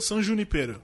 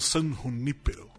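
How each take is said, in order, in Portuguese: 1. O nome é falado com pronúncia do português brasileiro. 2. O nome é falado com pronúncia inglesa.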